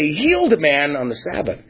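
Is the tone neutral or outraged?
neutral. It is said in a calm, matter-of-fact tone. The healing is reported as a simple fact. The speaker calls it wrong. "they wouldn't say"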